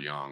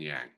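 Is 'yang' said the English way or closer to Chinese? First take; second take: Chinese; English. First: It is said closer to a Chinese pronunciation. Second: It is said with an everyday English pronunciation.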